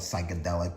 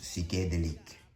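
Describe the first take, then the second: First: It is said with a plain English accent. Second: It is said with a French accent. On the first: "If your French sucks like mine, just call it psychedelic" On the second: "with the French accent, I think it's pronounced psychedelique"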